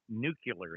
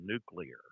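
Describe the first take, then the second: First: It is said in the common nonstandard variant. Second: It is said in the standard form. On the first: The speaker calls it wrong. "many people say n- nuclear" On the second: The speaker calls it right. "instead of nuclear"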